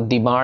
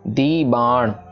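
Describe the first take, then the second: First: It is run together as one word. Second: It is said as two separate words. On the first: The speaker calls it wrong. "दी बाण नहीं कहना" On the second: The speaker calls it right. "ये अलग अलग है"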